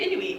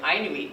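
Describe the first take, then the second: First: The first vowel is not an 'eye' sound. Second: The first vowel is an 'eye' sound. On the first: The speaker calls it right. "the correct way to say Inuit" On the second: The speaker calls it wrong. "it's not like an iPhone either"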